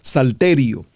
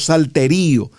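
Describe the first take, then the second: First: The stress falls on the 'te' syllable. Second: The stress falls on the 'ri' syllable. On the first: The speaker calls it right. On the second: The speaker calls it wrong. "no salterío"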